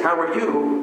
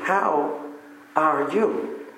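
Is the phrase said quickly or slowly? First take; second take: quickly; slowly. First: It is said quickly, in passing. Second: It is said slowly, with emphasis.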